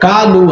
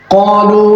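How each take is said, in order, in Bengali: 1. প্রথম ব্যঞ্জনটি হালকা ও সাধারণ। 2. প্রথম ব্যঞ্জনটি গভীর ও ভারী। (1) "বাংলা ব্র্যাকেটে যদি থাকে লেখা, তাইলে এটার উচ্চারণ হয়ে যাবে এরকম" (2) "কোরআনের আয়াত হলো"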